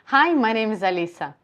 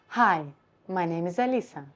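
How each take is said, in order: First: The voice is at its ordinary natural pitch. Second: The voice sounds lowered and deeper in pitch. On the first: "I'm talking to you in my natural position" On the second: "if I would do lower position of my larynx"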